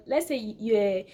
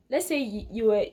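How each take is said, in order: Both takes have the same delivery.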